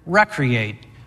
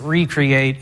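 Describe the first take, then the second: First: It is pronounced like the start of recreation. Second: It is pronounced as re-create, creating again. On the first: Refreshing and reviving oneself. "I mean it like we'd normally pronounce recreation" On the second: Making something again. "normally we pronounce it recreate"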